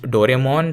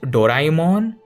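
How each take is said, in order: First: The name has the pronunciation used in India. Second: The name has its standard, original pronunciation. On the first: "here in India it's pronounced Doraemon" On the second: "I know it's pronounced Doraemon"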